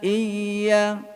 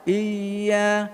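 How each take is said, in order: The two takes are said the same way.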